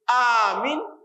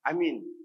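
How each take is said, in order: First: Only the first vowel is long. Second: Both vowels are short. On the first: Grant safety. "kalau alifnya di ahkamul alif" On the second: Have faith. "kita hanya baca. Amin"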